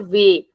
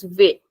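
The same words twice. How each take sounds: First: "ve" said with a wide open e like "veh", held a little longer; "ve" with an open e, the wrong version; "ve" with an open e as in English "bet". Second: "ve" with a closed e like "vay", the sound stopped short; "ve" with a tight closed e, mouth closing early; "ve" as the correct closed Portuguese vê. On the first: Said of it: "not ve". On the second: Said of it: "it's ve". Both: Shown as a demonstration.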